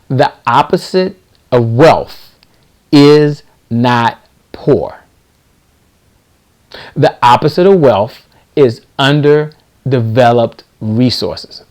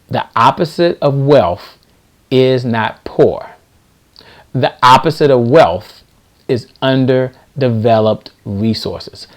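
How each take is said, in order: First: It is said more slowly. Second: It is said at normal speed.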